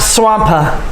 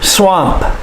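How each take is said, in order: First: A strong P ends with an extra vowel sound. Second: A soft P ends with closed lips, no vowel. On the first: The speaker calls it wrong. "not a strong P sound. It's not swampa" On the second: The speaker calls it right. "your lips must come together and make the P sound"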